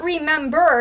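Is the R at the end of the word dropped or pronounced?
pronounced. The final R sound is clearly pronounced. The speaker calls it wrong. "it's not remember"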